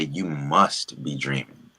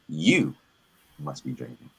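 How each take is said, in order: First: The stress is on "must". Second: The stress is on "be".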